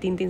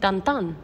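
First: Both vowels sound like a plain 'ee'. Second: Both vowels sound like a nasal 'an'. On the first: The speaker calls it wrong. "no se dice Tintín" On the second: The speaker calls it right. "se dice Tantán"

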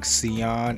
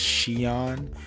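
First: The name begins with a plain S sound. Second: The name begins with an SH sound. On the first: The speaker calls it wrong. "I was saying Sion" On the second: The speaker calls it right. "it's Sheon with a SH sound"

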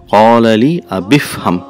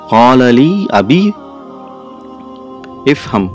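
First: The words run together without a break. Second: The words are said separately with a break. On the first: The speaker calls it right. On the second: The speaker calls it wrong.

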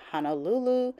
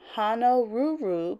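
First: The word is said with L sounds. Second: The word is said with R sounds. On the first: This is the modern form of the name. "became Honolulu" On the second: This is the older form of the name. "because we're replacing the R with an L"

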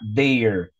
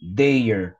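Both takes have the same delivery.

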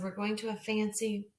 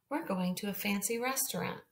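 First: It is read haltingly, stopping mid-sentence. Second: It is read smoothly without stopping.

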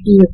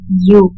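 First: The word starts with a vowel sound. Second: The word starts with a y sound. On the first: The speaker calls it wrong. "not ew" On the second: The speaker calls it right. "the pronunciation of this word is you"

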